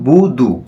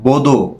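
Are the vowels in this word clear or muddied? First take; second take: clear; muddied. First: Both vowels are pronounced as a clear u. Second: The vowels sound blurred toward an o sound. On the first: The speaker calls it right. "বুদু একবার স্পষ্ট উচ্চারণ" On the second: The speaker calls it wrong. "আবার বদো এরকম পড়ে, এটা যেন না পড়ে"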